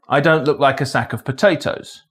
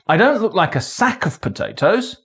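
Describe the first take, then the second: First: No single word carries special stress. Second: The stress falls on the word sack. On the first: It is a neutral statement of fact. "a neutral statement of fact" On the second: It looks like another kind of container. "I look like another container of potatoes, but not a sack"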